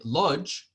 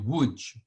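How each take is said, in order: First: It is said the American way, as written. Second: It is said the Polish way, like Woodge. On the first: The speaker calls it wrong. "most Americans say Lodz" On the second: The speaker calls it right. "the Polish pronunci- pronunciation is actually Łódź"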